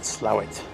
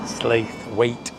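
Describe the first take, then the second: First: The name is said in a short, clipped form. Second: The name is said fully, as it is spelled. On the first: This is how the locals say it. The speaker calls it right. "That's how they pronounce it" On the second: This is how outsiders say it. The speaker calls it wrong. "we used to call it Slaithwaite because it's spelt Slaithwaite"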